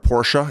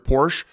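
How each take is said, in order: First: The word is said as two syllables. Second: The word is said as one syllable. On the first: The speaker calls it right. "it's two two syllables" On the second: The speaker calls it wrong. "My my apologies"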